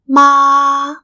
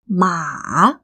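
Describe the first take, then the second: First: The pitch stays high and level. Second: The pitch dips low and then rises. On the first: It means mom. "When it has the first tone, which is flat" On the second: It means horse. "third tone, which is the falling rising"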